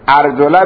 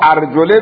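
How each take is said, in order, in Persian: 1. صدای بعد از L، a است. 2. صدای بعد از L، i است. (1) "عطف بر محل رؤوسکم هست که مفعوله" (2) "عطف بر لفظ رؤوسکم هست"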